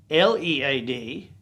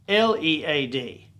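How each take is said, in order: The two takes are said the same way.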